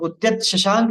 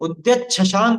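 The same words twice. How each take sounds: First: The words are said separately with t and sh. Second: The words are joined with a ch-chh sound. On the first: The speaker calls it wrong. "नहीं बोलने में आएगा" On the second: The speaker calls it right. "त का तो आधा च बन जाएगा और श का छ बन जाएगा"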